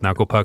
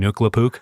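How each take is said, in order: First: The name is pronounced in its normal form. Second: The name is pronounced in a deliberately mangled form.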